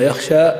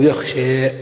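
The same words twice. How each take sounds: First: Said in the usual way. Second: يخشى ending tilted toward e, yekhshe; imala. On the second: Shown as a demonstration. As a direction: lean the final a of يخشى toward e. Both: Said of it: "إما يخشى أو يخشى".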